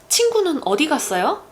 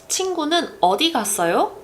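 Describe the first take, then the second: The two takes are said the same way.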